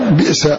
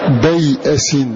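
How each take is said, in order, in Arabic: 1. كسرة قصيرة بعد الباء، ثم همزة ساكنة. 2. فتحة قصيرة بعد الباء، ثم ياء، ثم همزة، ثم فتحة قصيرة. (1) "قرأ ابن عامر بكسر الباء وبعدها همزة ساكنة على وزن بئر" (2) "فالياء هنا ساكنة بين فتحين"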